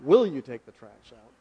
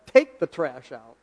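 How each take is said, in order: First: Gentle asking, stress on "Will"; polite request. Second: Slow, firm order with the stress on "Take"; blunt command. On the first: Preacher contrasting his wife's command with a polite request, a mild asking tone. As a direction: lift "Will" to make it a kind question. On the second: Husband imitating his wife's command to take out the trash, slow and firm. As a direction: lean on "Take" and bark it flatly as an order. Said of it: "She said". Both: Retold or imitated.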